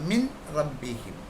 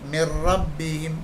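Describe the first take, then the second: First: A clear n is heard before the r. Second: The n merges into a doubled r. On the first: The speaker calls it wrong. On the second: The speaker calls it right.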